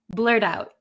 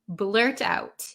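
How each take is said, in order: First: It is said quickly with a soft D sound. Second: It is said slowly with a clear T sound.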